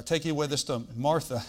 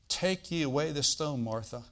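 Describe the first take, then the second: First: Quick "stone", then "Martha" set apart and firm; brisk phrase with a strong separate "Martha"; punctuation play. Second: Trailing, lowered "Martha" at the end; punctuation play. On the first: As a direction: rush to "stone", then land "Martha" with weight. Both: Shown as a demonstration. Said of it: "Gotta get the punctuation right there".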